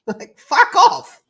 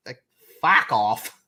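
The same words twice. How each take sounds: First: Laughing put-on voice. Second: Said in the usual way. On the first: Shown as a demonstration.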